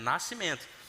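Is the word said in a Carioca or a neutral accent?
neutral. It has no glide before the s. The speaker calls it right. "não tem o I aí"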